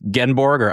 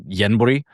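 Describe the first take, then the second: First: The name is said in an anglicized way. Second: The name is said in a native-style way. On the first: The speaker calls it wrong. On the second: The speaker calls it right.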